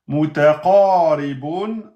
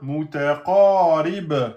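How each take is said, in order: First: The word ends with a vowel and n. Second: The word ends on a bare consonant. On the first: The reading continues without stopping. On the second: The reader stops on this word.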